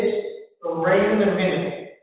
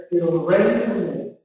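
First: General American, starting higher with hardly a bump on rain; American intonation. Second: RP English, starting very low and rising to medium on rain; British melody with a clear jump on rain; British RP intonation. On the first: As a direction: keep it even and start high, American style. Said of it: "in American English, I'm going to have a higher pitch". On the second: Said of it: "in British English because I have to go very low to a medium". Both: Shown as a demonstration.

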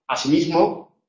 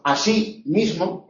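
First: "así mismo" joined as one word, stressed on MISMO. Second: ASÍ MISMO said slowly as two stressed words; two separate words. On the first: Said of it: "el acento principal es el del segundo formante mismo". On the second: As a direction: give "así" and "mismo" each its own stress. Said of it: "serán dos palabras". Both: Shown as a demonstration.

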